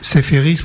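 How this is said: The name is said the French way, bright and clear. The speaker calls it wrong. "prononcé comme ça, a une sonorité claire, lumineuse"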